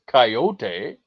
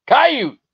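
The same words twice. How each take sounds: First: Coyote in three syllables, kai-OH-tay; California pronunciation. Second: Coyote said with two syllables, KAI-yoot; local pronunciation. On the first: Retold or imitated. Trapper quoting Californians, mocking pronunciation. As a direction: draw out coyote with a final tay. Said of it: "how the fucking California douchebags say it". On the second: Shown as a demonstration. Trapper showing chat how it's said, emphatic demonstration. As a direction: punch out Coyote high, with no final ee. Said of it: "That's how you say that".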